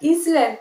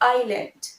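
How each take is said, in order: First: It begins with an 'iz' sound. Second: It begins with an 'eye' sound. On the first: The speaker calls it wrong. "এটা ইজল্যান্ড নয়" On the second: The speaker calls it right. "It will be আইল্যান্ড"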